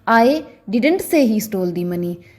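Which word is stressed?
didn't. The stress is on the word didn't. The speaker denies having said it. "अगर मैं didn't पर stress डालकर बोलूं"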